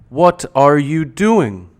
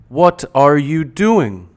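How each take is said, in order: First: Each word is pronounced fully and separately. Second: The same.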